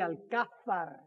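The name is said with a Spanish pronunciation. This is how it is said in Spain. The speaker calls it right. "in Spain, it would be Luis de Alcázar"

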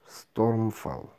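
The word is pronounced the English way. "А по-английски Stormfall"

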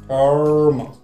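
An r sound follows the vowel. "если вы хотите образовать американское произношение, после звука «э» нужно добавить еще звук «р»"

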